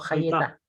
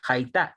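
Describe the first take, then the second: First: A short e vowel separates y and t. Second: No vowel is heard between y and t. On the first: The speaker calls it wrong. "y no Hayetá" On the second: The speaker calls it right. "Eso se pronuncia Haitá"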